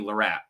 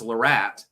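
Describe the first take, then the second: First: The T sound is reduced, not fully pronounced. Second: The T sound is fully pronounced.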